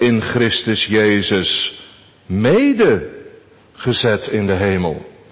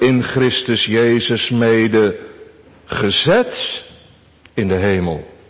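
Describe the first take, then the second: First: The stress falls on the part mede. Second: The stress falls on the part gezet. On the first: "Onze derde gedachte" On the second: "Onze tweede gedachte"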